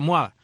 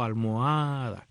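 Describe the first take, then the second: First: The word is said in a short, contracted form. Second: The word is said in a long, drawn-out form. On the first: The speaker calls it wrong. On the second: The speaker calls it right.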